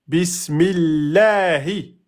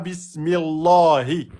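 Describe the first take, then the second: First: The L of the name is light and thin. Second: The L of the name is heavy and full. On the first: The speaker calls it right. "il est prononcé de façon amincie" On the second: The speaker calls it wrong. "et pas"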